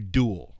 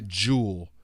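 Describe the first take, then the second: First: The first sound is a hard, plain D. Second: The first sound is a softened, J-like D. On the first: This is how Americans say it. "we say duel with a hard D" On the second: This is how British speakers say it. "we don't say"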